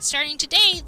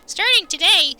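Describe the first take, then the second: First: It is read in a normal voice. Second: It is said in a put-on character voice.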